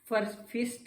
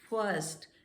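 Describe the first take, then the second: First: The vowel is a short 'ih' sound. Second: The vowel is a central 'er' sound. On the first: The speaker calls it wrong. "ये फिस्ट नहीं" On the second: The speaker calls it right. "छोटे आ की"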